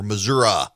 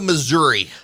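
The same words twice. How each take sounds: First: It uses the local Missouri pronunciation. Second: It uses the general, non-local pronunciation.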